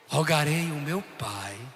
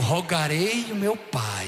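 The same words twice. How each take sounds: First: The phrase is spoken quietly, almost hushed. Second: The phrase is spoken at normal loudness.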